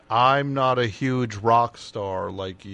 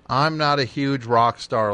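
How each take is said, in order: First: It is said slower, deeper and respectfully. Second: It is said at normal speed and pitch.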